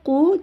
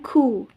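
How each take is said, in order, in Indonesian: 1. Huruf q diucapkan tanpa hembusan napas. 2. Huruf q diucapkan dengan hembusan napas. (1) "dibaca Ku" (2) "jangan Ku. Tidak boleh ada hembusan napas di situ"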